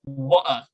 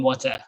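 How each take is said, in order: First: It is said in a British accent. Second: It is said in an American accent.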